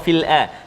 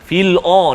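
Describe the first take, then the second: First: The vowel after fil sounds light, like a. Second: The vowel after fil sounds heavy, like o. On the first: The speaker calls it right. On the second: The speaker calls it wrong.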